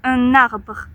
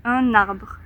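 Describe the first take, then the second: First: The n is carried into the next vowel. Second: The n is carried into the next vowel.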